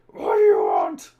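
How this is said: It is said in a put-on orc voice.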